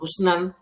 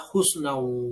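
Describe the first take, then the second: First: The word ends with a clear n sound. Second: The ending n merges into a w sound. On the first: The speaker calls it wrong. "tidak dibaca husnan" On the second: The speaker calls it right. "tapi dibaca husnau"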